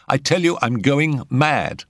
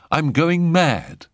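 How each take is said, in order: First: High-pitched, dramatic insistence; insistent repeat. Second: High, slow, drawn-out bitter confession. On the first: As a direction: press it home to get a reaction. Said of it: "he repeated it". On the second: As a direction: announce it bitterly and dramatically, stretching it out. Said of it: "said Jack bitterly". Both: A narrator's reading.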